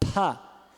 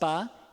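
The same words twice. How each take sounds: First: The p is released with a puff of air. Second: The p is released without a puff of air.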